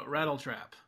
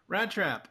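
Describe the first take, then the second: First: "Rattle Trap" with the full two-syllable rattle; corrected name. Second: "Rat Trap" said as two short words, rat and trap; misspoken name. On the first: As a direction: say "Rattle Trap" carefully, stressing RAT-tle. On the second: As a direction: say "Rat Trap" quickly, one syllable each. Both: Real, not acted. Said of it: "I mean, uh".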